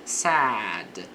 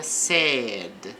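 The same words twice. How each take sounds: First: "sad" with a wide open a vowel; "sad" with a broad a; open-mouth sad. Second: "sad" said like said, with a closed e vowel; slow "sad" with a narrow vowel, like said; wrong vowel in "sad"; "said" sound. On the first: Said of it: "A boca fica mais aberta". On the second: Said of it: "diferentemente do passado do verbo say". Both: Shown as a demonstration.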